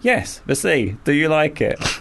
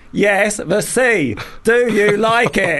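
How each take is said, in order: First: It is said in a calm tone. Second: It is said in a frustrated tone.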